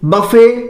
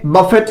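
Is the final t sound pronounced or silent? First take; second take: silent; pronounced. First: The word ends on a vowel, no t. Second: The word ends with a clear t sound. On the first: The speaker calls it right. "इसका जो सही उच्चारण है" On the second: The speaker calls it wrong. "जो कि अपने आप में यह गलत उच्चारण है"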